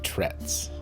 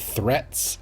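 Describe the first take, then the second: First: The word begins with a plain T sound. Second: The word begins with a TH sound. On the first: The speaker calls it right. "he should have said trets. There's no H's" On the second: The speaker calls it wrong. "he said threats"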